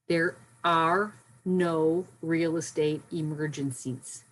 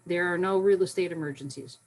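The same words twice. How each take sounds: First: It is spoken very slowly. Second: It is spoken at a normal pace.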